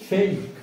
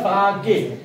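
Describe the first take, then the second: First: It is said as one syllable, 'fek'. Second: It is said as two syllables, 'pha-ke'. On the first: The speaker calls it right. "ए असा उच्चार यायला लागलेला आहे" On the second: The speaker calls it wrong. "मुळाक्षरानुसार पाठ केलं तर ... फाके म्हणत बसाल"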